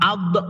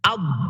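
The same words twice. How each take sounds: First: The final consonant bounces with an echo. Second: The final consonant stays still without a bounce. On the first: The speaker calls it wrong. "Kalau ab berarti memantul" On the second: The speaker calls it right. "Suaranya nggak ada yang keluar di dalam rongga mulut"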